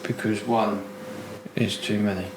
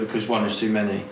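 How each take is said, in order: First: The phrase is said more slowly. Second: The phrase is said at a normal pace. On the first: "the second time, you read it a bit slower" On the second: "first I was like"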